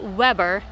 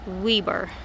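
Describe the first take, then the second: First: Weber is said the general, non-local way. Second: Weber is said the local Utah way. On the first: This is how outsiders say the name. "In Utah, they don't call it Weber" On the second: This is how locals say the name. "They call it Weber"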